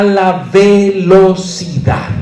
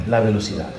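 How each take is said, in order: First: "velocidad" broken into slow, stressed syllables; emphatic syllables. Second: Said in the usual way. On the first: Real, not acted. Teacher recapping a key point, "velocidad" hammered slowly.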